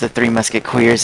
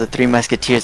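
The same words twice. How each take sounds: First: Musketeers is pronounced in an altered way. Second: Musketeers is pronounced in the usual way. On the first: This is how the father mispronounced the title. The speaker calls it wrong. "my dad called The Three Musketeers The Three Musketeers" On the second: This is the real title of the film. The speaker calls it right. "Still can't believe my dad called"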